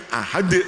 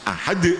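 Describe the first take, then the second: No difference in how they are said.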